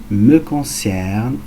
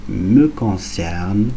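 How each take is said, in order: The two takes are said the same way.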